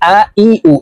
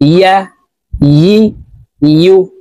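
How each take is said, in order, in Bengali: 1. সিলেবলগুলো glottal stop দিয়ে শুরু হয়। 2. সিলেবলগুলো y ধ্বনি দিয়ে শুরু হয়। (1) "আমরা অনেকে ইয়ার উচ্চারণ হামজার উচ্চারণ করে থাকি আ ই উ এভাবে পড়ে থাকি" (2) "ইয়ার উচ্চারণ সঠিকভাবে পড়ব জিহ্বার মধ্যখান থেকে দেখুন এভাবে পড়তে হবে"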